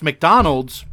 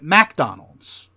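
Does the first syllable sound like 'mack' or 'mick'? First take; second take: mick; mack. First: The first syllable sounds like 'mick'. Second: The first syllable sounds like 'mack'. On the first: "they don't pronounce McDonald's" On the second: "They pronounce it MacDonald's"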